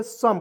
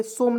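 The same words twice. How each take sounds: First: सम with a short "uh" vowel, silent final e; correct pronunciation. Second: सोम with a long "o" vowel; सोम rhyming with "home"; rejected pronunciation. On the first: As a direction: say सम like English "sum". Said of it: "सम पढ़ेंगे". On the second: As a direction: say सोम with a rounded "oh" in the middle. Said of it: "सोम नहीं पढ़ेंगे". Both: Shown as a demonstration.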